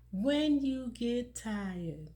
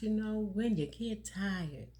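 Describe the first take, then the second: First: Slow, deliberate, weighing each word; very slow emphatic repeat. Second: Said in the usual way. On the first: Shown as a demonstration. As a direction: let the phrase sink in slowly. Repeats key phrase slowly for emphasis.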